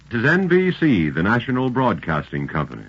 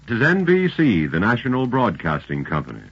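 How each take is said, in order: Both takes have the same delivery.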